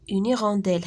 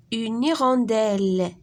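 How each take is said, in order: First: Said in the usual way. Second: Hirondelle lent, appuyé sur la fin elle; détacher hirondelle en insistant sur elle; nom modelé. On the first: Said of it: "هاد الوازو هذا سميتو hirondelle". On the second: Shown as a demonstration. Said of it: "كنسمعوا فيها elle". (كلمة hirondelle بتمطيط ونبر على elle)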